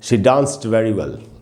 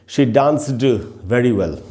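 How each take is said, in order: First: The word 'danced' ends with a t sound. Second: The word 'danced' ends with a d sound. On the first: The speaker calls it right. "अगर इसको हम ट बोले डी को तो आप बड़ी आसानी से बोल सकते हैं" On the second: The speaker calls it wrong. "दिक्कत हो रही है"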